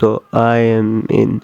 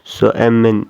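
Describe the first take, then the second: First: I am is said as two full words. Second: I am is contracted into one syllable. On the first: "normal speaker English this word pronounced" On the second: "like a native speaker, this word pronounced"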